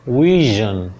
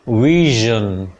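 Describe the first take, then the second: No difference in how they are said.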